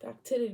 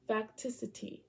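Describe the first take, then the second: First: The middle sounds like 'tility', with an L. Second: The middle sounds like 'ticity', with an S. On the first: The speaker calls it wrong. "No, I said that wrong" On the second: The speaker calls it right. "like stating something as fact"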